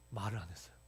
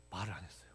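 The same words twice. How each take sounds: The two takes are said the same way.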